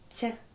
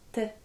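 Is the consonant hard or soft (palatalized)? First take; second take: soft; hard. First: The t is soft, palatalized with a y-glide. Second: The t is hard, not palatalized. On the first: "derrière le T un signe mou, je prononcerai" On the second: "le T suivi d'un signe dur, je prononcerai T"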